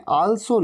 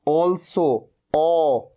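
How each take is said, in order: First: Also with an open "aa", "aal-so"; wrong aa vowel. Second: Also as "awl-so", then the vowel alone; rounded aw vowel. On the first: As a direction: say also Hindi-style as "aalso". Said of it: "also नहीं". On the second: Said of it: "क्या कहना है". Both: Shown as a demonstration.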